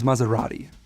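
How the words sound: It is said with an American accent, unrolled R. The speaker calls it wrong. "that's how many Americans would say it"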